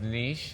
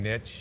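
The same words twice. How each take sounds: First: The word uses its original pronunciation. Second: The word uses the American pronunciation. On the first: "the origination of the word was pronounced niche" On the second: "we as Americans uh, started using niche"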